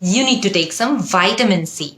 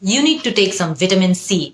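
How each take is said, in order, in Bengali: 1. এটি আমেরিকান ইংরেজি উচ্চারণে বলা হয়েছে। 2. এটি ব্রিটিশ ইংরেজি উচ্চারণে বলা হয়েছে। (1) "তখন হয়ে যায় ওটা আমেরিকান।" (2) "ব্রিটিশ।"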